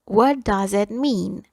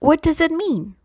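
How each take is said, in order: First: Slow, carefully spaced teacher model; slow dictation pace; slow and clear. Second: Said in the usual way. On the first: Shown as a demonstration. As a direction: spell it out slowly for the class. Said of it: "teacher repeats slowly for learners". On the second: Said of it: "teacher models the English line".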